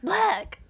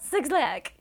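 First: The name sounds like the single word black. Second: The name sounds like the number six, then lack. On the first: The speaker calls it right. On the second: The speaker calls it wrong. "It's not 6 lakh"

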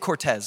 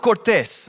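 First: The name is said with an English accent. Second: The name is said with a Spanish accent. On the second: "I'm going to say it how it's supposed to be said"

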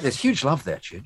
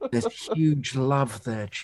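First: It is said with lively enthusiasm. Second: It is said with a tone of awe.

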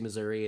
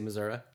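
First: The word ends with an 'ee' sound. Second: The word ends with an 'ah' sound. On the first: This is how people in the city say it. "if you're like in St. Louis, you say Missouri" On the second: This is the rural, folksy way of saying it. "if you're like in Branson, you say Missouri"

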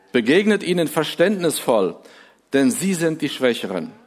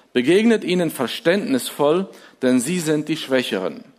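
The two takes are said the same way.

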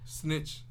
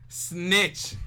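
First: It is said at normal, quieter volume. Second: It is said louder.

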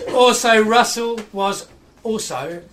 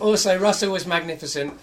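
First: It is said in a put-on London accent. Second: It is said in the speaker's own accent.

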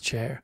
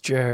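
First: The name starts with a voiceless ch sound. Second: The name starts with a voiced j sound. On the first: The speaker calls it wrong. "You just keep pronouncing it as chair" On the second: The speaker calls it right. "it's Jer"

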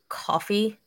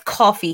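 First: The word is said in a general American accent. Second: The word is said in a thick Jersey accent. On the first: This is how outsiders say it. "You all like, say, like, what is it? Coffee or however the hell you pronounce it" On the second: This is how locals say it. "We say it's coffee here, okay? We have that thick Jersey accent"

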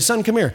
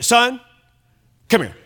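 First: It sounds warm and friendly. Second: It sounds stern and threatening.

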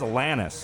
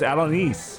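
First: The name sounds like the singer Alanis. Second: The name sounds unlike the singer Alanis. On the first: The speaker calls it wrong. "I thought it was [name]" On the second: The speaker calls it right. "It's not Alanis. It's Alanis"

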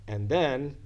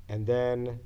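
Both takes have the same delivery.

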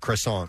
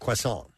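First: The R is said as a hard R. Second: The R sounds more like a W. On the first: "Throw an R in there, a hard R" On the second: "it's more like a W"

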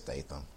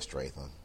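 First: The name is said without an R sound. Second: The name is said with an R sound. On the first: The speaker calls it right. "No, it's Statham" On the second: The speaker calls it wrong. "you said Statham"

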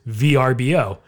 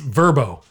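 First: The name is spelled out letter by letter. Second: The name is said as one word. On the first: The name stands for its full words. "But if it's Vacation Rentals by Owner" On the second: This is the official way to say it. "No, it's Verbo"

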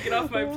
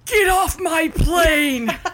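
First: It is said plainly in her normal voice. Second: It is shouted in a put-on character voice. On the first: The speaker calls it wrong. "You can't just say" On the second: The speaker calls it right. "you can only say in the voice"

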